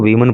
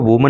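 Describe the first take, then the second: First: The first syllable sounds like 'wih'. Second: The first syllable sounds like 'woo'. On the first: The speaker calls it right. "इसको वीमन पढ़ेंगे" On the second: The speaker calls it wrong. "इसको वुमन नहीं पढ़ेंगे"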